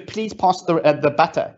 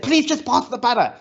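First: Said in the usual way. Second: Higher, pleading, retold exasperation at a machine; a mild mock yell that begs the robot; mock exasperated plea. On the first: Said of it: "I said to her". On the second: Speaker pleads with the Alexa robot, mock exasperated and higher. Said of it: "And I kept on screaming at it".

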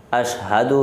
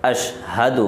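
First: "اشہد" with a final u as ashhadu; correct version. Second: "اشہد" clipped without final u; wrong version. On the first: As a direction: model "اشہد" ending in u. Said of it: "اشہد ہے". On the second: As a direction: say "اشہد" the faulty way. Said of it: "اشہد نہیں ہے". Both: Shown as a demonstration.

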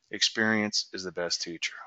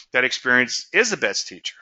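First: Calm, low and softer, a wise quiet lesson. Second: Said in the usual way. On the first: Retold or imitated. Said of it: "he said very calmly". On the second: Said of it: "I never forgot that".

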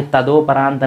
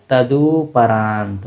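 First: तदोपरांत with an o in the middle, ta-do-pa-raant; तदोपरांत said with do in place of du; wrong way. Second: तदुपरांत said slowly as ta-du-pa-raant, with a short u; तदुपरांत with du in the middle, drawn out; right way, slowly. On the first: Teacher showing students the wrong way: तदोपरांत with an o. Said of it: "नहीं होता है". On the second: Teacher slowly showing students the right way: तदुपरांत with a short u. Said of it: "तदुपरांत होता है". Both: Shown as a demonstration.

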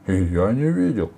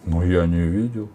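First: Loud, slightly raised echo; witch calling out. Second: Said in the usual way. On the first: A narrator's reading. Witch backing the robber chief, mild shout. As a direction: chime in with a mild cry. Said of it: "крикнула ведьма".

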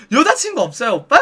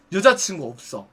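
First: Lightly voiced, inquisitive hostess; chatty hostess. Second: Low, quieter customer reply; terse male customer. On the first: Hostess probing a customer about girlfriends, chatty questioning. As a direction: put it as a lilting question. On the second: Retold or imitated. Customer replying to the hostess's question, terse and low. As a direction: answer low and brief. Customer gives short answer.

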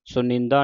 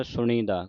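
First: ਸੁਣੀਂਦਾ said nasal and run together; ਸੁਣੀਂਦਾ as the common error; wrong pronunciation demo. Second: ਸੁਣੀ ਦਾ said as two words without nasal; ਸੁਣੀ ਦਾ as taught; correct pronunciation. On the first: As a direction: show the mistake ਸੁਣੀਂਦਾ as one nasal word. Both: Shown as a demonstration. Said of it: "ਸੁਣੀਂਦਾ ਨਹੀਂ ਕਹਿਣਾ".

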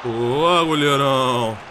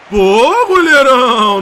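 First: Said in the usual way. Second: Loud cheering; loud praise shout. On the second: Real, not acted. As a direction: cheer the keeper loudly.

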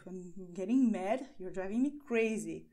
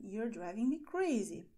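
First: Mock annoyance, a little louder; mildly mad. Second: Said in the usual way. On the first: Shown as a demonstration. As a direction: act out being fed up, lightly. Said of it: "And it can be negative". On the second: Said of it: "you're saying".

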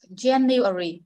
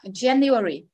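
First: January drawn out syllable by syllable; January in careful, separate syllables; slow demonstration. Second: January run together a little quicker; January at a slightly brisker teaching pace; slightly faster. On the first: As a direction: say January slowly for a learner to copy. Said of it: "Cô đọc chậm, phiên bản chậm trước". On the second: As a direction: say January as one connected word. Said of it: "Đọc nhanh hơn xíu ha". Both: Shown as a demonstration.

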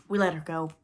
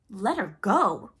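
First: Pleased with himself, no alarm at all; complacent. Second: Loud, drawn-out disbelieving cry; outraged cry. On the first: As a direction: report it complacently to the captain. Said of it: "Smee answered complacently". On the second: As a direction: echo it in slow outrage. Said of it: "cried Hook". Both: A narrator's reading.

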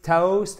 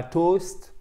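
First: Toast with a gliding oh vowel, higher; correct vowel. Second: Toast with one pure French o; wrong French-style vowel. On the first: Teacher models the right toast for learners, vowel gliding. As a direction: say toast as in English, with a diphthong. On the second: Teacher shows learners the mistake, toast with a French o. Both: Shown as a demonstration. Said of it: "et non pas toast".

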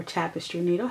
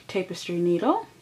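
First: Tapestry with a short A, TAP-estry; alternative pronunciation. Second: Tapestry with a long A, TAPE-estry; alternative pronunciation. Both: Shown as a demonstration. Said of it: "however you like to pronounce it".

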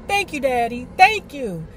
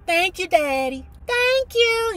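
First: Slightly raised thanks; plain excited thanks. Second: High thrilled thank-you; shrieked thanks. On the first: Girl thanking her father, mildly excited. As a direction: modest happy thank-you. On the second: Girl thanking her father for the skates, high shriek. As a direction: squeal your thanks. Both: Retold or imitated. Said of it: "I shrieked".

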